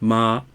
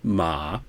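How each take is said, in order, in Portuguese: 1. É dito com o primeiro tom. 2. É dito com o terceiro tom. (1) "usa o primeiro tom" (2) "terceiro tom"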